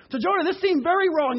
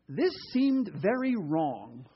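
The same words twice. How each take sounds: First: "this seemed very wrong" higher and louder, with "very" punched; emphatic reread. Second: Slow, quiet reading of "this seemed very wrong". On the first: Preacher rereading the verse he loves, raised and emphatic. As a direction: hit "very" hard, voice raised. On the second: Preacher first reading Jonah's verse, slow and quiet. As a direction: read "this seemed very wrong" slowly and softly. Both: Shown as a demonstration. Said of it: "I love that way it's put".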